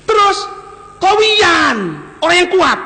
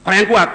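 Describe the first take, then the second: First: Emphatic proclamation. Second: Said in the usual way. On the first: Real, not acted. Preacher proclaims Umar's strength.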